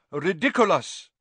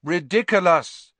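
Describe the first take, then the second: First: Teacher showing the incantation, crisp; demonstrated spell. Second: Loud chorus of pupils; the whole class yells the spell back; class shouting together. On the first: Shown as a demonstration. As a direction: model the word clearly for the class. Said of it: "After me, please". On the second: A narrator's reading. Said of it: "said the class together".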